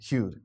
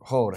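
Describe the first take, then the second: First: It is said with a yoo sound. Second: It is said with a long o sound. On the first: "It's not hewed" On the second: "or hoed"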